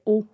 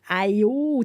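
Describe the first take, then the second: First: It is said as a single o vowel. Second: It is said as two separate vowel sounds. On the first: Someone who knows French reads it this way. "Toi, tu sais que ça fait O" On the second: Someone who speaks another language reads it this way. "quelqu'un qui parle une autre langue va dire comme aïe-o"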